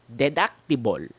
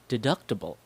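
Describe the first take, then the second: First: The unstressed vowels are full and clear. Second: The unstressed vowels are reduced to schwa. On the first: The speaker calls it wrong. "how Filipinos would usually pronounce it" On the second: The speaker calls it right. "how I pronounce it"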